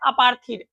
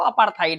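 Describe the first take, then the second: First: The last syllable sounds like 'theed'. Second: The last syllable sounds like 'thide'. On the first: This is how many people read it. The speaker calls it wrong. "इसे बहुत लोग अपार्थीड भी पढ़ते हैं" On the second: This is the actual pronunciation. The speaker calls it right. "एक्चुअल pronunciation जो है वो अपार्थाइड है"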